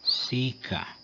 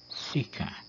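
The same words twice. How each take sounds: First: Lengthened I in Latin sica; long I in sica. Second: Quick I in Latin sica; short I in sica. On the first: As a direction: draw out the I of sica. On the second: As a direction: cut the I short before the C. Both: Shown as a demonstration. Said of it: "para as vogais breves".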